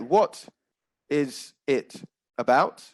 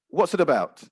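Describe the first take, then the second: First: The words are separated by pauses. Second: The words are linked with no pauses.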